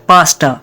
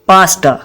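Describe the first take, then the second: The two takes are said the same way.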